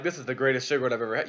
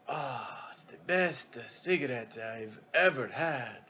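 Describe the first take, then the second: First: Said in the usual way. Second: Put-on slow, soft, savoring Italian-accented English; drawn-out Italian accent like tasting fine wine; hushed Italian accent with a sigh; Italian broken English. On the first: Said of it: "the captain's like". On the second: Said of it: "Italian, you know, American broken English".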